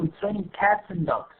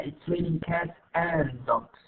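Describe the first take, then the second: First: AND turned into a quick 'n' after cats; reduced form. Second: Slow, AND fully pronounced as a separate word; long form. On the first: Teacher corrects to connected speech, AND reduced to 'n'. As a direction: link cats and dogs with just an 'n'. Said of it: "بنحاول نقلبها ل N". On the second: Teacher shows what not to say, slow full AND. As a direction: give AND its full vowel, every word apart. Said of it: "ما بقول أنا". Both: Shown as a demonstration.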